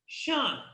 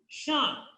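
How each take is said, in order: The two takes are said the same way.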